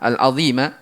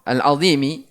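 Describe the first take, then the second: First: The word ends with an 'a' vowel. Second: The word ends with an 'i' vowel. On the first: The word describes the Lord. "Kalau dia di fathah" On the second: The word describes the Throne. "Kalau dibaca kasroh"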